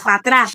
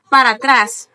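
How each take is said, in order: First: Several sounds are dropped from the phrase. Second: Every sound in the phrase is fully pronounced. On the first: This is how Dominicans say it. "We say ... We delete letters" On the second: This is how standard Spanish says it.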